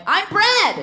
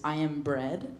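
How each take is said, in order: First: "I'm bread!" shouted high and loud; proud shout. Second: Low, soft, flat-voiced "I am bread"; quiet deadpan. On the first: Retold or imitated. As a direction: announce "I'm bread!" triumphantly. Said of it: "and I'm like". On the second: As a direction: state "I am bread" softly and plainly. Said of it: "what it translates to is".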